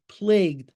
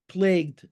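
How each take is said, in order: First: Said in the usual way. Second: Plagued repeated with extra weight, falling; stress on plagued. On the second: Shown as a demonstration. Reading the article aloud, he stresses plagued with a firm fall. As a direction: lean hard into plagued. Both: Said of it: "emphasis on the word plagued".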